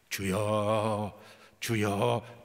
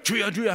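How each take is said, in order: First: Slow drawn-out cries of 주여; slow earnest prayer. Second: Rapid urgent repeated 주여; quickening prayer. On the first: Praying over the drunk man, slow drawn-out pleading. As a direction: draw each 주여 out slowly and pleadingly. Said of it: "이 주여가 빨라지는". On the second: Praying over the man as the prayer speeds up, urgent and fast. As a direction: press the 주여 faster and faster. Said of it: "나중에는 막 빨라지는 거예요". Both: Retold or imitated.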